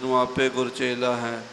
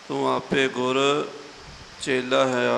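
First: The phrase runs together without a pause. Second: There is a pause within the phrase. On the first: The speaker calls it wrong. "ਆਮ ਤੌਰ 'ਤੇ ਇਕੱਠਾ ਹੀ ਕਰ ਜਾਂਦੇ ... ਇਸ ਤਰ੍ਹਾਂ ਨਹੀਂ ਕਰਨਾ" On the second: The speaker calls it right. "ਇਹ ਆਪ ਜੀ ਨੇ ਵਿਸਰਾਮ ਨੋਟ ਕਰਨਾ ਜੀ"

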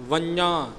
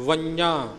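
No difference in how they are said.

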